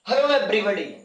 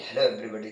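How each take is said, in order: First: It is said loudly and plainly. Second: It is said in a showy, stylized way. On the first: The speaker calls it right. "आपको थोड़ा सा loud रखना है" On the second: The speaker calls it wrong. "ऐसे नहीं करना कि ... तुम भी वहां स्टाइल मार रहे हो"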